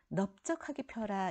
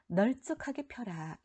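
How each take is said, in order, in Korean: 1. 첫 음절은 ㅂ 소리로 끝나요. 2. 첫 음절은 ㄹ 소리로 끝나요. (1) "뒤에 게 맞아요. 넓적하다는 넙으로 발음한다" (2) "원칙이라면 널쩍하게가 맞아야 되잖아요"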